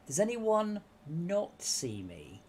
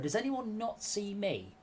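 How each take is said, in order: First: It is said slowly. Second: It is said at normal speed.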